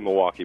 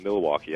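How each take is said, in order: First: The L sound is left out of the word. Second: The L sound is clearly pronounced in the word. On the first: This is how the speaker normally says it. "I don't say the L in Milwaukee. ... I say Milwaukee" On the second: This is not how the speaker says it. "but not Milwaukee"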